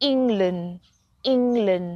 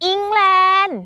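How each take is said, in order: First: "England" falling, with a reduced second syllable; English-style "England". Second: "England" high, with a long full "-laen"; Thai-style "England". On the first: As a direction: model "England" stressed on the first syllable, ending "-lund". ("England" แบบอังกฤษ เน้นพยางค์แรก เสียงตก) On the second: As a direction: say "England" in a high Thai accent, stretching the end. ("England" สำเนียงไทย เสียงสูง ลากท้าย) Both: Shown as a demonstration. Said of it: "เราสิออกเสียงถูกกันกี่ค".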